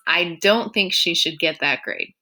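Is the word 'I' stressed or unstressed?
unstressed. The word 'I' carries no special stress.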